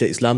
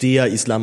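First: It is said in a plain, neutral way. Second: It is said with strange, loaded emphasis.

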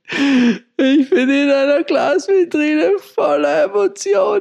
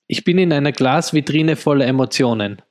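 First: It is acted in the film character's manner. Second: It is said plainly, not acted.

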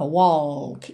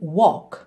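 First: The tongue touches the palate for an L sound. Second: No L sound is pronounced in the word. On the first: The speaker calls it wrong. "A gente não leva a língua lá no céu da boca" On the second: The speaker calls it right. "e sim walk"

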